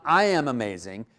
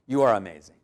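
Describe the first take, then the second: First: "I" leaned on, line left rising as the rejected version; stress on I. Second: "you are" set against the wrong version, falling at the end; stress on you are. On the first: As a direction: hit "I", then end on an unfinished rise. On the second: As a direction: land "you are" lower, as the correction. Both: Shown as a demonstration. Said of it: "So it's not".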